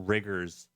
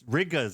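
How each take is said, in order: First: The R sound is clearly pronounced. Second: The R sound is dropped. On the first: The speaker calls it wrong. "I said it with a hard R" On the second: The speaker calls it right. "I should say rigas"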